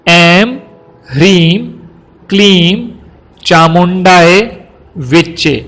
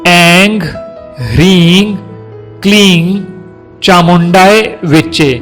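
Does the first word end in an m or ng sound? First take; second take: m; ng. First: The first word ends with an m sound. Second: The first word ends with an ng sound. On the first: This is the form for ordinary recitation. The speaker calls it right. "जिस तरह से इस मंत्र का उच्चारण होना चाहिए" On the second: This form is mostly used for tantric practice. The speaker calls it wrong. "कुछ लोग इस तरह से भी प्रोनाउंस करते हैं"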